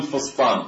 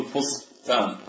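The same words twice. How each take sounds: First: "فسطان" with heavy ص sound and ط; emphatic ص and ط. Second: "فسطان" as fos-taan, heavy ص then light ت; ص followed by ت. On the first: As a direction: darken both consonants in "فسطان" to ص and ط. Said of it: "لو نطقنا بالصاد فنقول فسطان". (نطق "فسطان" بصاد وطاء مفخمتين) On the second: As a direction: say "فسطان" split, ending in a plain ت. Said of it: "لا نقول فسطان". (نطق "فسطان" بصاد ثم تاء مرققة) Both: Shown as a demonstration.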